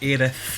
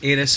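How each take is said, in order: First: The name ends with a lisped th sound. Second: The name ends with a plain s sound. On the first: This is the official version. The speaker calls it wrong. "not Aerith. I don't want to lisp" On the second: This is the version the speaker prefers. The speaker calls it right. "Aeris is Aeris"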